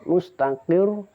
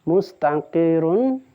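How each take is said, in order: First: The word stops on r with a slight bounce. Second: The word ends with an -un syllable.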